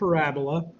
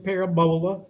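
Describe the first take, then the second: First: It is said in a standard accent. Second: It is said in a Far East Texas accent.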